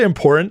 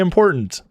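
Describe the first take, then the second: First: The middle T sound is dropped. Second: The middle T sound is pronounced. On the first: The speaker calls it wrong. "I don't say important" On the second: The speaker calls it right. "I say important. I put a T in there"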